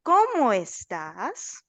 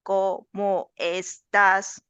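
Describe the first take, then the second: First: "¿Cómo estás?" lento, subiendo alto en "cómo"; entonación de pregunta. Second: "¿Cómo estás?" lento y plano, sin subir al final; entonación equivocada. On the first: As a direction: canta la pregunta "¿Cómo estás?" con subida marcada. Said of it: "atención". (entonación correcta de pregunta, exagerada para el alumno) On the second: (pregunta dicha plana a propósito, como error) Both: Shown as a demonstration.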